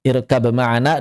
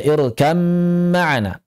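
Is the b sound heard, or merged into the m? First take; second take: b heard; merged. First: A clear b sound comes before the m. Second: The b is dropped and merges into the m. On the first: This is the reading of some other reciters. "sebagian qiraat ada yang baca irkab ma'ana" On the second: This is the reading the class follows. "ba-nya hilang langsung masuk ke dalam mim"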